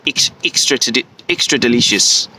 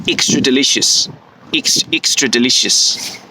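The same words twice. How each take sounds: First: "extra delicious" with the E vowels pulled inward, clipped and tight; inward New Zealand E. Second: "extra delicious" with the E vowels pushed outward, a first rough take; too-outward New Zealand try. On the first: New Zealander's "extra delicious", corrected inward E take. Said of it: "It needs to be inward". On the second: New Zealander's "extra delicious", rejected take with outward E sounds. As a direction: guess at a Kiwi E in "extra delicious", then drop it as too open. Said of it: "that's too outward". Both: Shown as a demonstration.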